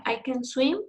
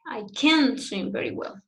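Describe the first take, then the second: First: Light "can", "swim" rising; affirmative stress on SWIM. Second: "can't" emphasized over "swim"; negative stress on CAN'T. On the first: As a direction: pass quickly over "can" onto a stressed "swim". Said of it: "it's difficult to identify". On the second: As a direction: put the weight on "can't", not on "swim". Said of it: "the emphasis is in can't". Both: Shown as a demonstration.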